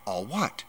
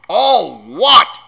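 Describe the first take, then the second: First: Put-on softly puzzled boy; small, quiet question. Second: Thunderous, outraged roar, much higher; booming giant's outrage; thundering. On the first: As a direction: ask it softly, unsure. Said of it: "asked Harry". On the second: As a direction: roar it back in disbelief. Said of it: "Hagrid thundered". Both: A narrator's reading.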